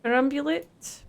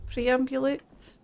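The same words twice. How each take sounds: First: "Perambulate" with per- first, rising; trying "Perambulate" as per-AM-bu-late, unsure; questioning pronunciation. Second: "Preambulate" slowly, pre- first, rising; testing "Preambulate" as pre-AM-bu-late, slow and unsure; slow questioning pronunciation. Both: Real, not acted.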